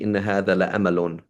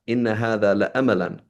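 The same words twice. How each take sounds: First: "لأمل" said as "la-amal", with no -an ending; "إن هذا لأمل" ending on "amal"; corrected reading. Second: "لأملا" read with the ending -lan, "la-amalan"; "إن هذا لأملا" said with a final "-an" on "لأملا"; text as written. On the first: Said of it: "'Cause it should be". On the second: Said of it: "the Arabic here was a bit, a bit off". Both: Shown as a demonstration.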